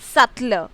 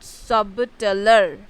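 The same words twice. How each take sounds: First: The b sound is silent. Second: The b sound is pronounced. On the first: The speaker calls it right. "It should be subtler, B should be silent" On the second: The speaker calls it wrong. "not subtler"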